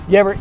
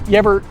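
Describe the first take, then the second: No difference in how they are said.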